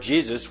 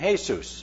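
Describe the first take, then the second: First: The name is pronounced the English way. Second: The name is pronounced the Spanish way. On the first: "which is in English" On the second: "There you have the Spanish pronunciation of the same word"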